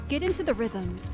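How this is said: It is said in a put-on deep voice.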